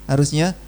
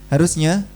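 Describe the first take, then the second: No difference in how they are said.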